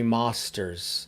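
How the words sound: It is said in a British accent.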